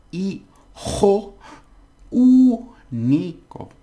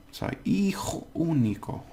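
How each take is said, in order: First: Hijo high and loud, único very high, loud and drawn out slowly; exaggerated overpronunciation. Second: Said in the usual way. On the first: Shown as a demonstration. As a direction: ham up the stress on único. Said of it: "So really overpronounce it". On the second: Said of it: "I'm not overpronouncing it enough".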